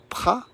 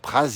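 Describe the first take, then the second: First: The final consonant is silent. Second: The final consonant is pronounced. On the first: The speaker calls it right. "En savoyard, on ne prononce pas le Z" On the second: The speaker calls it wrong. "on ne dit pas Pras évidemment"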